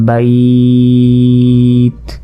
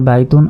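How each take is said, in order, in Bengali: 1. শব্দটি সাধারণ t ধ্বনিতে থেমে যায়। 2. শব্দটি পূর্ণ -tun অংশ দিয়ে শেষ হয়। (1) "ওয়াকফ করি অর্থাৎ থেমে যাই" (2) "যদি আমরা একবারে পড়ে যাই"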